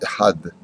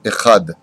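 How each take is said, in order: First: The middle consonant is a deep pharyngeal h. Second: The middle consonant is a velar rasp. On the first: The speaker calls it right. "C'est un chet, ce n'est pas un chaf" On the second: The speaker calls it wrong. "Les Marocains ont du mal à dire le chet comme il le faut"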